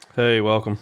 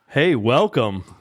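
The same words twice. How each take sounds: First: It is said flatly, without much feeling. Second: It is said with more feeling and energy.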